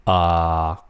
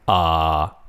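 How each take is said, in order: First: The pitch stays low and level. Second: The pitch stays low and level.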